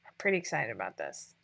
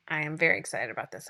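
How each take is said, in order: First: Said in the usual way. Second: Very leaned on, quick restatement; stress on very. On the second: Real, not acted. Telling viewers how excited she really is, stress on very. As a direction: hit very to upgrade pretty.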